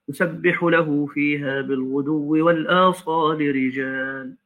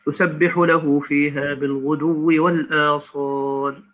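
First: The recitation runs straight on without stopping. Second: The recitation stops after the last word. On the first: The reading is joined up to complete the meaning. "ثم أعيد" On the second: The reciter pauses at the end of the verse. "كده وقفنا على رأس الآية"

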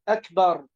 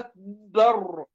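First: The b sound is single and short. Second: The b sound is doubled and held. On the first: The speaker calls it right. "الباء مفتوحة أكبر" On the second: The speaker calls it wrong. "لا يشدد الباء فيقول الله أكبر"

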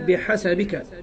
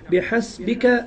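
First: The s is followed by an a vowel. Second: The s has no vowel after it. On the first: "وفتحها" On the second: "بسكون السين"

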